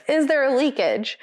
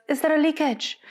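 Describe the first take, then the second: First: Imitated quote in an American accent, higher pitch. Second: Higher-pitched attempt at a French accent; heavy French accent. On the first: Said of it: "do it in an American accent". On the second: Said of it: "sounding more French than ever before".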